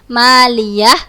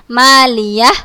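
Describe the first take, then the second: Both takes have the same delivery.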